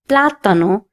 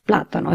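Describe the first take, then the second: First: The stress falls on the first syllable. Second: The stress falls on a later syllable. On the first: The speaker calls it right. "I have to stress on this letter and say plátano" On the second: The speaker calls it wrong. "instead of plátano"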